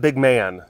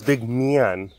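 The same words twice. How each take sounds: First: The word man is said short and plain. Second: The word man is drawn out like myahn. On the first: The speaker calls it wrong. "It's not big man" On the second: The speaker calls it right. "It's like M Y A H N"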